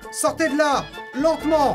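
There is a pause after 'là'. The speaker calls it right.

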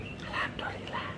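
The word is whispered very softly. The people around do not hear it. The speaker calls it wrong. "Jangan mengatakan alhamdulillahnya bisik-bisik"

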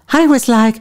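It is said in a put-on female voice. "So shall I do it in a female voice?"

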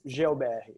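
The name is said with Portuguese pronunciation.

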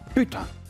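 The word sounds irritated and angry. The speaker is annoyed at having failed something. "La colère"

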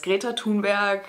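The name is said with a German accent. "The Germans know her as"

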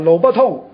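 The first pause comes after the third syllable. The road is closed, so you may urinate here. "我哋可以有另外嘅断句方式"

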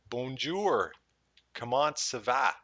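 It is said with a strong English accent.

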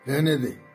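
It is said at a high, irritated pitch. The speaker is annoyed. "उच्च, झल्लाहट"

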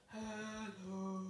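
It is said in a very low voice.

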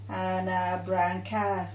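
The vowels are said flattened. This is how the local people say it. "we sort of go"

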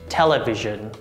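It is said with American pronunciation. "American pronunciation"

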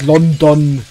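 The final o is fully pronounced, German style. "aber der Deutsche sagt London"

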